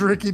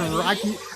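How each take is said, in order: First: The first vowel sounds like 'sit'. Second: The first vowel sounds like 'eye'. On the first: This is how the name is actually said. The speaker calls it right. "Apparently, it is Ricky Diamonds" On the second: This is how the speaker first guessed the name. The speaker calls it wrong. "I would have said Rikey"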